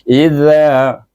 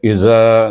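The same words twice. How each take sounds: First: The middle consonant is a voiced 'th' sound. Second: The middle consonant is a plain 'z' sound. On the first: The speaker calls it right. "Mesti keluar ujung lidah" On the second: The speaker calls it wrong. "jangan bahasa iza, za sudah jadi zai"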